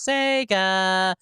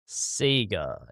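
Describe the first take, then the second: First: It is said like the Sonic intro, non-Australian. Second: It is said the Australian way.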